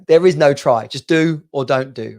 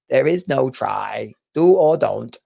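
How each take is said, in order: First: It is said in his normal voice. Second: It is said in an attempted Yoda voice.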